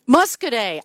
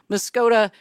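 First: The name ends with a 'day' sound. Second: The name ends with a short 'duh' sound. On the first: The speaker calls it right. "that's pronounced Muscoday" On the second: The speaker calls it wrong. "I get this wrong every time"

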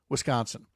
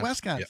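First: The first syllable sounds like 'wis'. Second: The first syllable sounds like 'wes'. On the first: The speaker calls it right. "he actually said Wisconsin" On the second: The speaker calls it wrong. "people think that we spell our state name W-E-S"

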